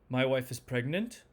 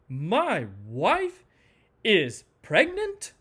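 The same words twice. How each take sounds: First: The pitch moves only a little. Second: Each word is stressed separately, with falling pitch. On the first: The speaker is unsure about the news. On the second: The speaker is upset by the news. "Anger does something interesting"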